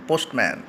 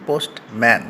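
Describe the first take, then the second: First: Said in the usual way. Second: postman cut in two, post, pause, man; a small gap between post and man; split into syllables. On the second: Shown as a demonstration. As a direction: say postman as two separate beats, post and man. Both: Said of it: "দুবার উচ্চারণ কেটে কেটে করতে পারি".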